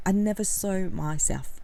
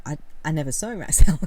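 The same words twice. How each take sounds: First: Said in the usual way. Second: I, I never saw myself said louder and quicker, stress on saw; louder, faster restatement. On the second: Shown as a demonstration.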